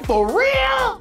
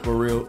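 First: It is said with lively, excited pitch. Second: It is said in a flat, monotone voice. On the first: The speaker is genuinely surprised. "They don't say" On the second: The speaker feels no emotion. "They are monotone"

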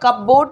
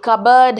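First: It is said as cup plus board. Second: It is said as one word, cubberd. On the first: The speaker calls it wrong. "ये कपबोर्ड नहीं है" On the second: The speaker calls it right. "ये कबर्ड है"

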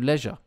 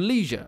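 First: The word is said in a non-American accent. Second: The word is said in an American accent.

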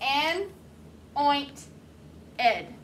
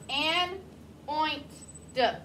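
First: The ending is said as a full 'ed'. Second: The ending is said as a short 'duh'.

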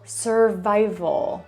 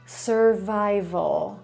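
The two takes are said the same way.

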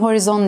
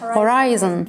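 First: The second syllable has a short 'ee' vowel. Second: The second syllable has an 'eye' vowel. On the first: The speaker calls it wrong. "Normalde okusam horizon diye okurum. Çünkü öyle görüyorum" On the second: The speaker calls it right. "Yani buradaki I gibi, horay. Ay"

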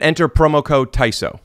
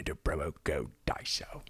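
First: It is said in the speaker's ordinary accent. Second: It is said in a put-on British accent.

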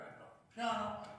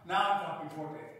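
First: It is spoken softly. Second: It is spoken at moderate loudness.

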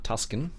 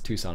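First: A k sound is heard in the middle. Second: No k sound is heard in the middle. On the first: The speaker calls it wrong. "It's not Tuscan" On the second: The speaker calls it right. "it's Tucson I believe is how you're supposed"

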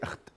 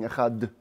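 First: The word is said quickly, with the ch swallowed. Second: The final d sound is lengthened and drawn out. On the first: It can sound like saying not one. The speaker calls it wrong. "Don't say echad. Like it's too quickly" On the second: It gives time to think of God as king everywhere. The speaker calls it right. "They stress the D, the dalet of echad"

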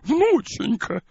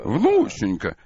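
First: It is said in a cranky old woman's voice. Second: It is said in a low, deep chest voice. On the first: "таким голосом вздорной старухи" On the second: "голос такой низкий. И, да, грудной такой"

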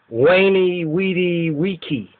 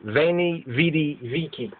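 First: Each word begins with a W sound. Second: Each word begins with a V sound. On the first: The speaker calls it right. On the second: The speaker calls it wrong.

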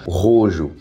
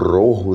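First: The name is said the Brazilian Portuguese way. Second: The name is said the original way. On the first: The speaker calls it wrong. "aqui no Brasil eles pronunciaram como Rojo" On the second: The speaker calls it right. "Que é a pronúncia certa"

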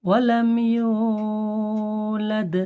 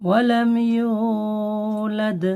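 No difference in how they are said.

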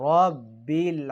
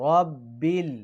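The two takes are said the same way.

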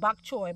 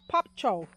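First: The word begins with a B sound. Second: The word begins with a P sound. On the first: This is how others mainly say it. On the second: This is the Jamaican way of saying it. "In Jamaica, we say pop chow"

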